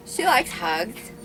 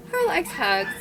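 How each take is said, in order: First: Said in the usual way. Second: Put-on baby talk to dog.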